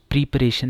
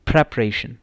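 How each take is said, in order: First: प्रिपरेशन with a pri sound, pri-paration; wrong pronunciation. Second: प्रिपरेशन with a pre sound, pre-paration; correct pronunciation. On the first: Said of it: "प्रिपरेशन नहीं है". (प्रिपरेशन गलत उच्चारण, प्रि से शुरू) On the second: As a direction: say प्रिपरेशन clearly, starting pre. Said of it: "इसकी क्या pronunciation है". (प्रिपरेशन सही उच्चारण, प्रे से शुरू) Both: Shown as a demonstration.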